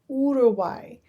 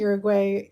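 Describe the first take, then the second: First: The word begins with an 'oo' sound. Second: The word begins with a 'you' sound. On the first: The speaker calls it right. "the U makes it oo sound, so Uruguay" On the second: The speaker calls it wrong. "I'm going to keep saying Uruguay even though I know that's not how you pronounce it"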